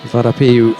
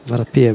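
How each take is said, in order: First: The name ends in an oo vowel sound. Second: The name ends in a v consonant sound. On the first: The speaker calls it wrong. "instead of it with the U sound" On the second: The speaker calls it right. "it's got V sound at the end"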